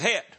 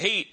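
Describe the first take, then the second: First: The vowel is short, like 'het'. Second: The vowel is long, like 'heat'. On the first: "He calls it het. Good old Southern Kentucky language" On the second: "He doesn't call it heat"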